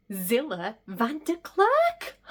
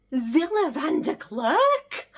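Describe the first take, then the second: First: Said in the usual way. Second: High, slow, drawn-out name; starstruck disbelief. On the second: Acted. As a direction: savour the name in awe.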